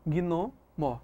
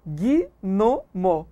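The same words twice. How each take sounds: First: "Gnomo" in two beats, gno, then mo, falling; "Gnomo" softly divided as gno... mo; correct two-part split. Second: "Gnomo" broken into three slow beats, gui, no, mo; "Gnomo" spelt out as three separate syllables, gui-no-mo; wrong split in three. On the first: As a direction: join gui to no in "Gnomo", pause, then a soft mo. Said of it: "Como é que eu separo". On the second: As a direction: pause between each syllable of "Gnomo": gui... no... mo. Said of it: "Muita gente separa". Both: Shown as a demonstration.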